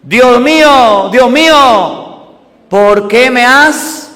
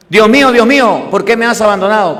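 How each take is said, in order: First: Loud, slow anguished cry, raised high. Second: Said in the usual way. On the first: Acted. Jesus on the cross crying to God, loud slow cry. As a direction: drag out the cry of abandonment. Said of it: "agobiado y gritó". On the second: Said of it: "¿Cuál es el verbo?".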